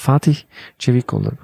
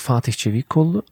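First: The name has an exaggerated, over-careful pronunciation. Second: The name has a Turkish pronunciation. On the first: The speaker is trying extra hard to get it right. "Und dann wollen sie es halt besonders richtig machen" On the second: This is how Turkish speakers say it. "Wir Türken, wir sagen"

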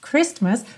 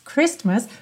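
First: The middle T sound is clearly pronounced. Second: The middle T sound is clearly pronounced.

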